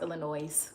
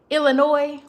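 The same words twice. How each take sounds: First: The final S is sounded. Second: The final S is silent. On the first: The speaker calls it wrong. "because that's a lie" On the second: The speaker calls it right. "without the pronouncing the S"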